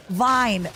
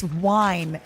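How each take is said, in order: First: "Vine" with a clear v sound; corrected pronunciation. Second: "wine" said for vine with a w sound; wrong pronunciation. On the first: Streamer corrects her own accent with a clear v. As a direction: fix it, bite the v in "Vine". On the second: Streamer shows how her accent turns v into w. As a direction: let the v slip into a w on "wine". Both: Shown as a demonstration. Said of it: "I struggle with my W's".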